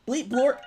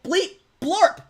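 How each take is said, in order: First: Beeping robot noises, high and loud. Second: Shrill robot beeps, much higher. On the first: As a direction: chirp it like a little robot. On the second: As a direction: squeal it out like a toy robot. Robot bit again, higher. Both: Pretend.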